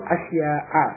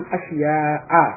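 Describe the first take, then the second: No difference in how they are said.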